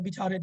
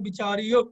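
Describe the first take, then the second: First: The final vowel is simply lengthened, nothing added. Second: The word ends with a separate added 'o' sound. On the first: The speaker calls it right. "इस तरह आएगा" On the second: The speaker calls it wrong. "ਕਈ ਲੋਕ ਪਾਠ ਇਸ ਤਰ੍ਹਾਂ ਕਰਦੇ ਹਨ ... ਉਹ ਗਲਤ ਉਚਾਰਨ ਹੈ"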